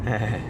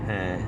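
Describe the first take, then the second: Both takes have the same delivery.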